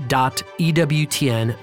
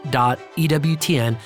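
The two takes are said the same way.

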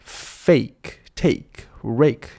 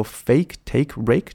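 First: FAKE, TAKE, RAKE one by one, separated, long AY unexaggerated; less deliberate. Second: FAKE, TAKE, RAKE run off quickly with long A. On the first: Teacher easing off the drill, careful separated words. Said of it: "可以不用那么刻意". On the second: Teacher showing fast speech stays correct, quick run. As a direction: rattle off FAKE, TAKE, RAKE without stretching. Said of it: "你念快的时候". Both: Shown as a demonstration.

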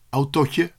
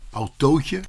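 First: "Autootje" with a short, open o, as in "otje". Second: "autootje" with a long, closed oo. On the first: Pupil testing the spelling aloud in his head, short O. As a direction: say "Autootje" as if spelt with one O. Trying word with one O. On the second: Pupil testing the spelling aloud in his head, long O. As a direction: stretch the oo in "autootje". Trying word with two O's. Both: Acted.

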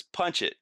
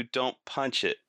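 First: "Punch" hit higher, "don't" gone; stress on punch. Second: DON'T punch it, the weight on "don't"; stress on don't. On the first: Driver mishearing the warning, "Punch" stressed. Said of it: "But all I heard was". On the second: Buddy warning the driver, stress on "don't". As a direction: land hard on "don't" in "don't punch it". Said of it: "and he said". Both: Retold or imitated.

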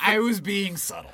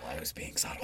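First: Said in the usual way. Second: Very soft, voiceless repeat; subtle whisper. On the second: Pretend. Co-host defending his subtle sarcasm, whispered.

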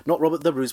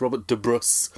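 First: "de" said plain as duh, the wrong way; plain "de" in "Robert de Bruce"; wrong pronunciation. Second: "de" set apart and stressed in "Robert de Bruce"; careful "Robert de Bruce", leaning on "de"; corrected pronunciation. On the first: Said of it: "apparently it's Robert de Bruce". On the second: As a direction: correct yourself on "de". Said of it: "apparently it's". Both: Shown as a demonstration.

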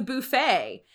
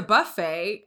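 First: Buffet with "boo" first, "boo-FAY"; own regional pronunciation. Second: Buffet with "buh" first, "buh-FAY"; classmates' correction. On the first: Shown as a demonstration. Woman recalls her college speech, buffet said as "boo-FAY". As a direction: round the first vowel of buffet to an "oo". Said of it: "I would say". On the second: Retold or imitated. Imitating college classmates correcting her, buffet said as "buh-FAY". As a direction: relax the first vowel of buffet to a short "uh". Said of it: "And they were like".

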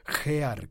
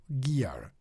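First: "gear" read the Spanish way, as jear with a throaty J. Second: "gear" said the English way, as giar with a hard G; English pronunciation. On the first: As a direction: say "gear" as Spanish readers do, with a rough J sound. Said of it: "también le dicen". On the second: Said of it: "Quienes hablan inglés dirán Mantis Gear". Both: Shown as a demonstration.

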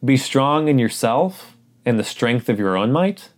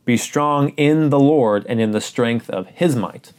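First: The wrong version, asked as a question with rising tune on "might"; mock wrong reading. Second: "his might" landed firmly with a falling tune; correct reading, stressed. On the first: Pastor offering the wrong reading to test the congregation, questioning. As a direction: read "Be strong in yourself" as the mistaken version, doubtful. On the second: Pastor correcting the congregation, firm and deliberate. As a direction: read it again properly, leaning on "his". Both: Shown as a demonstration. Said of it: "No, listen again".

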